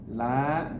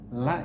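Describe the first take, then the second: First: The vowel is long. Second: The vowel is short. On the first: It means no or not. "kalau la-nya panjang, la dua harokat, artinya tidak atau bukan" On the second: It means truly or indeed. "La yang dibaca pendek maknanya sesungguhnya"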